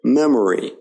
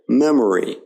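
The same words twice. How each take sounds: First: The middle vowel is a weak uh sound. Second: The same.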